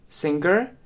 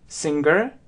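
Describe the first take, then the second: Both takes have the same delivery.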